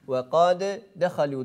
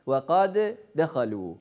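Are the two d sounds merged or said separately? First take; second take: separately; separately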